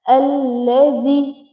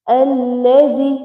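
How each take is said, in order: No difference in how they are said.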